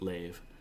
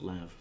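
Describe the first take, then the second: First: The vowel sounds like the one in 'save'. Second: The vowel sounds like the one in 'have'. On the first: This is how the newer game says it. "in Elite Dangerous they pronounce it Lave" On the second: This is how the speaker has always said it. "I've always pronounced it Lav"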